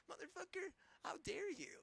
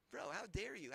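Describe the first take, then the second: First: Very high, strained cry of disbelief; real fury, pitch cracking upward; outraged shriek. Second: Louder but back down near normal pitch, hard fall on dare; firm, loud, pointed reproach; indignant repeat. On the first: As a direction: scream it up high like you can't believe them. Peak of the rant at them. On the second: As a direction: still angry but grounded, pressing the point. Repeats the line, calmer. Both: Real, not acted.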